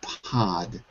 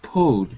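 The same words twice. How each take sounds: First: The vowel sounds like an open 'ah'. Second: The vowel sounds like a rounded 'oh'. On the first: The speaker calls it right. "but pod" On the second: The speaker calls it wrong. "Not pod"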